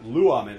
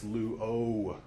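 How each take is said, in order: First: The middle vowel is said short. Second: The middle vowel is said long. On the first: The speaker calls it wrong. "it's not luamen" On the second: The speaker calls it right. "that lengthening of a vowel"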